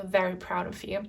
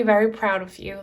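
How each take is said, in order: First: Said again much softer; soft echo. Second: Said in the usual way. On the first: Real, not acted. Reader softly repeats to the viewer that ancestors are proud, quiet. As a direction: let it fall to a hush, tender.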